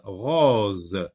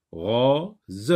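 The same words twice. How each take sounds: First: Said in the usual way. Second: Rose broken as ro, pause, ze; teacher sounding out rose syllable by syllable; rose in two syllables. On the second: Shown as a demonstration. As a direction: split rose into a long ro and a separate ze. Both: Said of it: "je sectionne le mot en deux syllabes".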